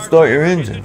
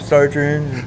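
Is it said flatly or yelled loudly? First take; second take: yelled; flatly. First: It is yelled loudly, with high energy. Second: It is said flatly, with no energy.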